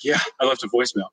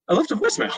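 First: Said in the usual way. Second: Much higher, squeaky defensive repeat. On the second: Retold or imitated. Husband repeating to his wife that he left a voicemail, squeaky and defensive. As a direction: say it again, pitched up and sheepish.

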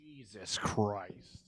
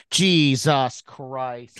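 First: Slow drawn-out curse, quieter, fading past; passing by doppler. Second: Drawn-out muttered curse fading in and out; passing by doppler. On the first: Shown as a demonstration. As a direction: fade it in and out like a passing car. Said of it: "The Doppler effect". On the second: Retold or imitated. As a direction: let it swell and fade like passing by. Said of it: "fade in, fade out".

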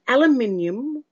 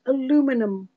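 First: "aluminium" as al-yoo-MIN-ee-um; British pronunciation. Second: "aluminum" as a-LOO-mi-num; American pronunciation. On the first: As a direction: stress MIN in "aluminium", five syllables. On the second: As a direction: stress LOO in "aluminum", four syllables. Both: Shown as a demonstration. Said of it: "or is it aluminum".

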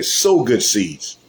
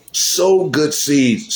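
First: Drawn-out, SOW stressed; slow emphatic preaching. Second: Sow lifted higher and drawn out; slow, higher emphatic repeat. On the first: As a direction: lay each word down slowly. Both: Real, not acted. Repeated exhortation.

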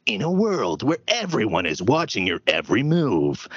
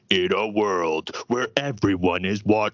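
First: Trained trailer announcer from the back of the throat; dramatic, throaty movie trailer voice; movie guy voice. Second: Amateur deep trailer voice, slowed down; slow, strained movie trailer narrator; movie guy voice. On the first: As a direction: intone it like a movie trailer narrator. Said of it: "that is at the back of my throat". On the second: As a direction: force a movie announcer as deep as possible. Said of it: "tried to go as deep as possible". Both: Shown as a demonstration.

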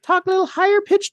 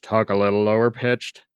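First: Very high-pitched demo voice; higher pitched. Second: Low-pitched demo voice; lower pitched. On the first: Co-host showing easy voice changes, higher pitched. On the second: Co-host showing easy voice changes, lower pitched. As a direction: drop the pitch well down. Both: Shown as a demonstration.

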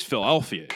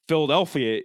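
First: Philadelphia as "Fil-elfia", middle d swallowed; dropped middle consonant. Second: Said in the usual way. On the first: Shown as a demonstration. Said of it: "consonants in the middle of a word ain't". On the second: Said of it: "you do intervocal enunciation".

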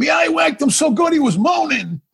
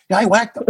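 First: Much higher, cracking up through the words; laughing punchline. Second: Said in the usual way. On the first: Retold or imitated. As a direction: giggle out the boast, pitched way up. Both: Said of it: "He goes".

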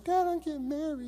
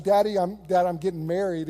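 First: Put-on higher, light little girl voice. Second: Said in the usual way. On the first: Pastor voicing his daughter as a little girl, higher. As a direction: say it like a small daughter. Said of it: "this little girl going". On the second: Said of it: "that movie when she's like".

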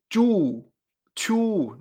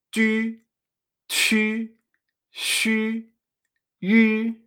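First: Chu, chu with a plain Spanish U, drawn out; wrong-way chu, chu, U as in Spanish "tú"; U española incorrecta. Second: Chu, chu, shu, yu with French Ü, lips rounded around an I; higher, held Chu, chu, shu, yu, each U as Ü; U francesa. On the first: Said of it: "Fíjate que no se dice". (chu, chu con U española) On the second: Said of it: "lo pronunciamos de esta manera". (Chu, chu, shu, yu con U francesa) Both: Shown as a demonstration.

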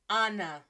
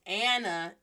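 First: "Anna" with an open ah; Spanish pronunciation. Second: "Anna" with the a of apple; English pronunciation. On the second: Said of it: "in English". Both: Shown as a demonstration.

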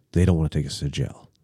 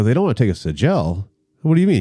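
First: Low, quick, hushed report; retold grim news, pitched down and softer; grave disclosure. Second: Quick questioning echo, climbing at the end; retold disbelief, asking for an explanation; incredulous echo. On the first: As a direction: break bad news under the breath. Friend translating the cops' grim plan. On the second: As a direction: throw the news back as a question. Echoes friend's news as alarmed question.

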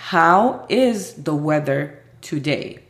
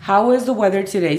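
First: Very slow, word by word; slow model question. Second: Said in the usual way. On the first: Shown as a demonstration. Teacher presenting a new question, slow and deliberate. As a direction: pronounce each word apart. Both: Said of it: "Otra pregunta parecida sería".

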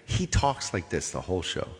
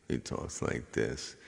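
First: Said in the usual way. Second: Low, slow gravelly drone; low gravelly monotone. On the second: Retold or imitated. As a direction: imitate a gravelly monotone singer.

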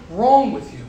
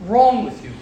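Both takes have the same delivery.

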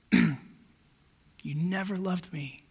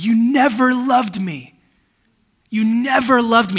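First: Soft, very slow, broken repeat; quiet tearful echo. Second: Retelling a man's pained shout, slow; imitating a yell. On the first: Retold or imitated. Preacher softly echoes the weeping man's words, hushed and slow. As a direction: let the accusation fall away in a hush. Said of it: "he's got tears in his eyes". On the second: Preacher retells a man yelling into his phone, mock yell. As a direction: shout the stranger's accusation, drawn out. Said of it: "he's yelling into the phone".

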